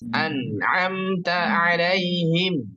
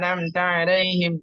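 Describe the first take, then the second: First: The phrase is recited at moderate pace, sounds clear. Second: The phrase is recited too quickly, sounds blurred. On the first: The speaker calls it right. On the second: The speaker calls it wrong. "contoh terlalu cepat begini"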